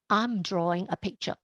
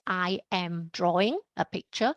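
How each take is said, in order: First: I and am merge into one short syllable. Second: The words I and am are said separately. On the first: "I will say" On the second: "I don't say"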